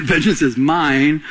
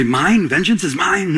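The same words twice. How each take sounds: First: "mine" drawn out slowly and firmly; slow, weighty statement ending on a held "mine"; God's declaration. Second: Mock questioning "mine?"; lightly acted doubter's query; questioning objection. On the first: Acted. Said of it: "God's saying". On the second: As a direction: toss it back as a listener's doubting question. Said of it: "You might say".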